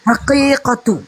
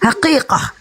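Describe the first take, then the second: First: The word ends with a full -atu syllable. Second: The word ends with a clipped -ah sound. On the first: This is the original root form. "Asal katanya adalah haqiqatu" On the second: This is the quick everyday form. "Dibaca dengan cepat menjadi dialek harian menjadi haqiqah"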